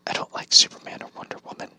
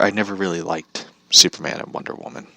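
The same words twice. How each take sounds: First: Soft unvoiced whisper, quick; whispered aside. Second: Said in the usual way. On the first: Real, not acted. Vlogger confesses to viewers he dislikes Superman, whispering.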